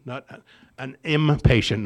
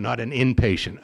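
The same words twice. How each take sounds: First: Impatient, with im said clearly as im; stress on impatient. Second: Inpatient, with in said clearly as in; inpatient said as the wrong word. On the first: Correcting his own slip, impatient stressed. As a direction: lean on the im of impatient. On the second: Pointing out the wrong word, inpatient. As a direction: say inpatient to show the slip. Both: Shown as a demonstration. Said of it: "I'm an inpatient person".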